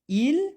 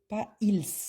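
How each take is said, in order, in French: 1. Le S final est muet. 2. Le S final est prononcé. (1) "le S, ici, on ne le prononce pas"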